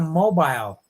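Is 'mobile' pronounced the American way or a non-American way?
non-American. It is said with a non-American pronunciation.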